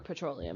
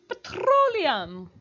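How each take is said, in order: First: The word is said plainly, without dramatic energy. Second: The word is said with dramatic, exaggerated energy.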